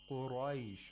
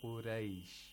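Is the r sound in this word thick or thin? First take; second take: thick; thin. First: The r is thick, with a full mouth. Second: The r is thin, with an empty mouth. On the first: The speaker calls it right. "You have to pronounce it with tafkhim, with thickness" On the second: The speaker calls it wrong. "You shouldn't say قُرَيْش, رَيْش. This is with thinness"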